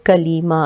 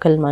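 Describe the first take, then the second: First: An ee vowel comes between L and M. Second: The L runs straight into the M. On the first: The speaker calls it right. "असल लफ्ज़ है कलीमा" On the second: The speaker calls it wrong. "कलमा नहीं होता"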